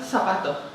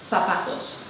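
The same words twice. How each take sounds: First: The final 's' becomes a breathy 'h'. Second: The final 's' is fully pronounced. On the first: "Aspiraríamos esa S final" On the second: "no diríamos zapatos"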